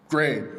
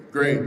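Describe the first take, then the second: No difference in how they are said.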